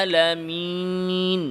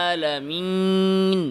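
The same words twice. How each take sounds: Both takes have the same delivery.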